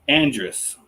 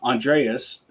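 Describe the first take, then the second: First: The name is said without extra added sounds. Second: The name is said with extra added sounds. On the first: The speaker calls it right. "I don't know why I got to add other letters and stuff" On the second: The speaker calls it wrong. "I'm going to say it wrong right now"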